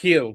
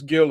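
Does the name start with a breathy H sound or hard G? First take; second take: breathy H; hard G. First: The name starts with a breathy H sound. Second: The name starts with a hard G sound. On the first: "The correct pronunciation in, in Spanish is Hill" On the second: "everybody says Gil"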